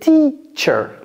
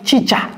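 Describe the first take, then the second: First: The word is said with softer, smoother sounds. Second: The word is said with harsh, forceful sounds. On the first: The speaker calls it right. "Non, c'est teacher" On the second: The speaker calls it wrong. "J'ai pas dit chicha, chicha. L'anglais, c'est c'est pas violent"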